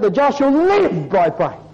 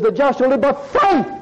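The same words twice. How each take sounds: First: LIVE pressed high and long, then falls; stress on LIVE. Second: FAITH hit high, falling to the end; stress on FAITH. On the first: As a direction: put the weight on LIVE. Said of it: "he emphasised one or other of those words". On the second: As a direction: land the weight on FAITH. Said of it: "the whole context is about the word faith". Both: Shown as a demonstration.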